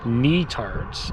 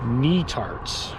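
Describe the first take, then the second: First: The first syllable sounds like 'knee'. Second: The same.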